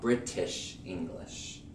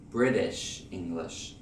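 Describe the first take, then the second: First: British English with a crisp true T; hard British T in "British"; British-style British English. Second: British English with flapped American T. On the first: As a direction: say "British English" with a sharp clear T. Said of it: "not British English". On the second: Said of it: "Notice that I say British English". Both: Shown as a demonstration.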